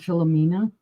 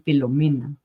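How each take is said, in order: First: The name is said with English pronunciation. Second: The name is said with Spanish pronunciation. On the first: "I just said it normally" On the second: "I want to pronounce it in Spanish"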